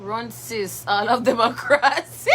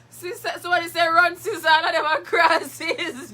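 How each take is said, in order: First: Said in the usual way. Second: Higher, slow, giggling through the words; laughing. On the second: Real, not acted. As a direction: read it again while cracking up. Rereads comment while laughing.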